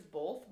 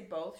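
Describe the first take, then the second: First: "both" with an L slipped in, like "bolth"; friend's "both". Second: "both" said with no L sound; standard "both". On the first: Retold or imitated. Host imitating Taylor's word, "both" as "bolth". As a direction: put an L before the th in "both". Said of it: "She says both". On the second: Shown as a demonstration. Host contrasting her friend's word, standard "both". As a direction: say "both" the usual way, without an L. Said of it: "Taylor doesn't say both".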